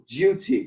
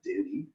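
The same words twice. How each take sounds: First: The vowel is said with a y glide, 'dyoo'. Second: The vowel is said without a glide, 'doo'. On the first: The speaker calls it right. "the liquid U" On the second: The speaker calls it wrong.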